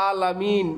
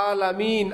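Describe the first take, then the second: No difference in how they are said.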